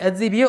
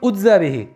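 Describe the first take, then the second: First: The first word begins with an a vowel. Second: The first word begins with a u vowel. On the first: I give the reward for it. "there are two ways of reading it" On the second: I myself am the reward for it. "Udza bihi would mean it is only for me"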